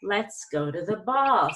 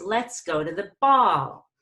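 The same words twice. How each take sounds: First: Slow, smooth rise and fall on ball; gradual and smooth. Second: Ball punched too loud at the end; too loud on last word. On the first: Teacher modelling a smooth gradual rise on ball. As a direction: glide gently up and down on ball. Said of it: "So you want it to be gradual". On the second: Teacher showing the wrong way, too loud on ball. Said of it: "So you don't wanna do this". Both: Shown as a demonstration.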